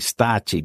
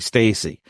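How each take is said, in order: First: The name is said with an Italian pronunciation. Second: The name is said with an English pronunciation. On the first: "the proper pronunciation would be Stacci because he's Italian" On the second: "I've heard it anglicized to be Stacy"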